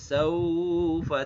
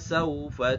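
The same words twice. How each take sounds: First: The first syllable sau is drawn out long. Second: The first syllable sau is kept short. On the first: The speaker calls it wrong. "saunya tidak dipanjangkan, tidak saufa ta" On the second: The speaker calls it right. "tapi kalla saufa ta'lamun"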